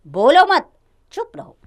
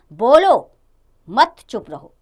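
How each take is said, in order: First: बोलो मत together, high and loud, a pause, then चुप रहो; pause after मत. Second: बोलो punched loud on its own, a pause, then मत चुप रहो; pause after बोलो. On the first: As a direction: join "मत" to "बोलो" and break before "चुप रहो". (बोलो मत एक साथ ज़ोर से, रुककर चुप रहो) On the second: (बोलो पर ज़ोर देकर रुकें, फिर मत चुप रहो) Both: Shown as a demonstration. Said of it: "पर बल देने अथवा उसे स्पष्ट करने के लिए हमें रुकना".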